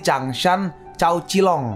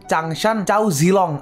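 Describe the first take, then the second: First: The name Zilong begins with a ts sound. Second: The name Zilong begins with a z sound. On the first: It follows the original reading. The speaker calls it right. "Cuma cara baca asli itu Cilong" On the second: It follows a popular game's hero name. The speaker calls it wrong. "gue pengen ngomong ngomong mode M L tapi salah cara ngomongnya"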